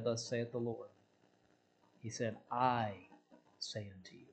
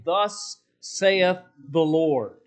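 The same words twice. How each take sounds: First: Much softer, lower "Thus saith the Lord"; hushed. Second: "Thus saith the Lord" drawn out slow, each word weighted; with authority. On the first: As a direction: drop to a near hush. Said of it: "Jesus never said". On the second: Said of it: "That carries authority". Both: Shown as a demonstration.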